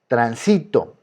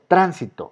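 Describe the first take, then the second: First: The stress is on the second syllable. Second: The stress is on the first syllable. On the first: "se encuentra en la penúltima" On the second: "es esdrújula. ¿Está en la tercera o está en la antepenúltima?"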